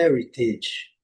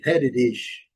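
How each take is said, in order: First: "heritage" slow, with a clear T; technical pronunciation. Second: "heritage" with the T tapped like a quick D; flat T. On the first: Teacher giving the technical form, "heritage" slow with a true T. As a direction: say "heritage" slowly as "HER-i-tidge". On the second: Teacher showing American English, "heritage" with T softened to D. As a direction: say "heritage" as "HER-i-didge". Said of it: "D ou R". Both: Shown as a demonstration.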